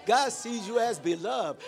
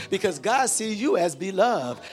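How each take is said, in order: First: GOD sees you as beloved, God hit hard; stress on GOD. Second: Said in the usual way. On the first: Shown as a demonstration. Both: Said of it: "When I emphasize the word beloved".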